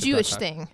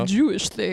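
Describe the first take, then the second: First: It is said in a plain, normal voice. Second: It is said in an exaggerated put-on voice. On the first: The speaker calls it wrong. "I feel like you could have said it in a more" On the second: The speaker calls it right. "That's in a voice"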